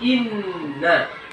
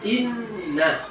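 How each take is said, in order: The two takes are said the same way.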